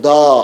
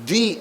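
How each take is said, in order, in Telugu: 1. ఈ అచ్చు 'uh' లా వినిపిస్తుంది. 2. ఈ అచ్చు 'ee' లా వినిపిస్తుంది. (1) "హల్లులకు ఉపయోగించినప్పుడు దా అని పలకాలి" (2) "అచ్చులకు దాన్ని ఆపాదించినప్పుడు ది అని పలకాలి"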